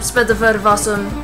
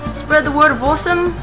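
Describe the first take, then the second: First: It is said in the speaker's ordinary accent. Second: It is said in an attempted Irish accent.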